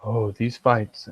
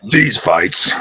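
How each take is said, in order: First: Public radio voice. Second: These fights in a slightly louder manly voice; masculine tone. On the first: Acted. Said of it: "talk like the public radio people". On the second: Shown as a demonstration. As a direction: beef up these fights a touch. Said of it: "a little bit more of a masculine tone".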